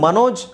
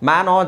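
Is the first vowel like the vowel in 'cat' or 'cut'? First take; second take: cut; cat. First: The first vowel is short and neutral, like 'cut'. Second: The first vowel is open and fronted, like 'cat'. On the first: This is how the Indian name is normally said. "ಇದು ಮನೋಜ್ ಅಂತ ಹೇಳಬೇಕು ಅಂದರೆ" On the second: This is how English spelling rules would read it. "ಇಂಗ್ಲೀಷಲ್ಲಿ ನೀವು ಓದಬೇಕು ಅಂದರೆ M ಎ ಮ್ಯಾ ಆಗುತ್ತೆ"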